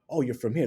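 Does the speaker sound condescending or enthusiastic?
enthusiastic. The tone is warm and enthusiastic. The speaker finds the origin interesting. The speaker calls it right. "appreciate that difference"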